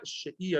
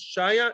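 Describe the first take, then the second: First: The name is said as 'Shia'. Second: The name is said as 'Shaya'. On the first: The speaker calls it right. "Shia, not Shaya" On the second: The speaker calls it wrong. "not Shaya"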